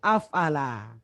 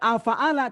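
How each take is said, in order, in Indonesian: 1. Tidak ada vokal setelah f, jadi tiga suku kata. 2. Ada vokal setelah f, jadi empat suku kata.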